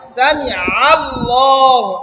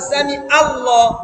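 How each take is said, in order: First: It has a deep throaty ayn before the vowel. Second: It has a plain glottal catch before the vowel. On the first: The speaker calls it right. "আইন জবর আ" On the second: The speaker calls it wrong. "হামজা দিয়ে বলছি"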